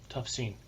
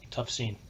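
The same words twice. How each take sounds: The two takes are said the same way.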